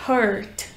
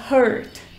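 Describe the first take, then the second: No difference in how they are said.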